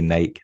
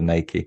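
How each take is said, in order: First: The word is said the British way. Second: The word is said the American way. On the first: "In in the U K, we say Nike" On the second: "instead of Nike"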